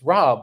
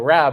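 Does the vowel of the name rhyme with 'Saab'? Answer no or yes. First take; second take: yes; no. First: The vowel rhymes with 'Saab'. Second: The vowel does not rhyme with 'Saab'. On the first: The speaker calls it right. "it's Rob like the car" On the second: The speaker calls it wrong. "people say it call you know Rab"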